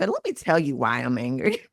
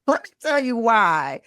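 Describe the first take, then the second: First: Said in the usual way. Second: Laughing, higher, repeating the line playfully. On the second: Shown as a demonstration. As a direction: laugh it out as you repeat the phrase. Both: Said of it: "It's like".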